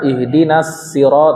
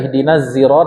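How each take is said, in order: First: The last word begins with a plain s sound. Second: The last word begins with a z sound. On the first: "membaca sin pada kalimat sirat" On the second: "karena ada qiraat yang demikian"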